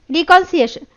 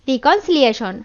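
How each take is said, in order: First: রিকনসিয়েশন said with the লি syllable dropped, quick and raised; a hurried first try at রিকনসিয়েশন that skips a syllable; slip of the tongue. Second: রিকনসিলিয়েশন said in full as রি-কন-সি-লি-য়ে-শন; careful self-correction, every syllable of রিকনসিলিয়েশন in place; corrected pronunciation. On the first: (রিকনসিয়েশন শব্দটি একটি অক্ষর বাদ দিয়ে ভুল উচ্চারণ) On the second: (রিকনসিলিয়েশন শব্দটি সব অক্ষরসহ শুদ্ধ করে উচ্চারণ) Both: Real, not acted.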